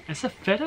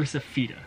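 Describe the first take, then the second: First: "feta" with a short e, FET-uh; first syllable of "feta" rhymes with "bet"; pronunciation option. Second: "feta" with a long ee, FEE-tuh; first syllable of "feta" rhymes with "see"; alternative pronunciation. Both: Shown as a demonstration. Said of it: "Is it feta or is it feta?".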